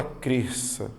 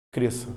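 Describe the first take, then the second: First: Cresça with the s and ç split into two sounds; teacher showing the mispronounced cresça; wrong cresça. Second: Cresça with one single s sound; teacher giving the right cresça; correct cresça. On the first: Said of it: "Você não fala cresça". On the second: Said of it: "É apenas um som". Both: Shown as a demonstration.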